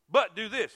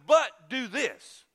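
First: Said in the usual way. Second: Each word drawn out and weighted, But do this; slow emphatic command. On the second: Shown as a demonstration. Preacher to congregation, slowing God's command right down. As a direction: lean hard on But, then let do this land slowly.

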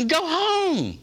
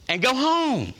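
First: Emphatic repeat. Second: Stern send-off, pitch climbing on home; firm dismissal. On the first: Preacher repeats to the unwilling, emphatic and higher. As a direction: go home, higher and punched hard. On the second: Preacher tells the unwilling to leave, stern. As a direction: tell them flatly to go home. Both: Acted.

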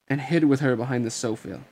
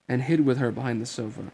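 No difference in how they are said.

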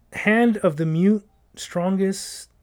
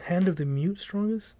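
First: Very slow, puzzling out each word; slow reading. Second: "hand of the mute strongest?" asked with a rise, softer; questioning reread. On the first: Coworker slowly deciphering a clue. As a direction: read it word by word. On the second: Coworker rereading the clue, unsure. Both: Shown as a demonstration.

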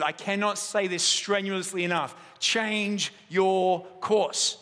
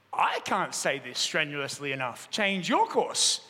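First: A hint of a commanding captain, slow on the last words; lightly voiced navy captain insisting; stern captain's order. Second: Mild, lower calm voice, slow and unbothered; lightly voiced steady keeper, echoing the order back slowly; calm reply. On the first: US captain repeating his order over the radio, mildly stern. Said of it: "the U S captain jumped on the radio again and said". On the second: The lighthouse answering the captain, calm and lower. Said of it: "The voice came back".

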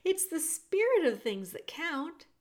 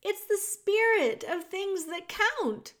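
First: Said in the usual way. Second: Louder, much higher, slowed repeat; shouting. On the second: A narrator's reading. Princess repeating loudly for hard-of-hearing Meg. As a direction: shout it slowly so she can hear. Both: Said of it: "shouted the P".

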